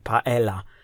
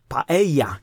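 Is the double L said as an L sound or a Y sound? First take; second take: L sound; Y sound. First: The double L is said as an L sound. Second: The double L is said as a Y sound. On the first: The speaker calls it wrong. "nie paella" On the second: The speaker calls it right. "czytana jako I, a nie jako L"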